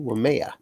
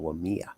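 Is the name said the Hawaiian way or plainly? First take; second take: Hawaiian; plain. First: It is said the Hawaiian way, with more inflection. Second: It is said plainly, with less inflection.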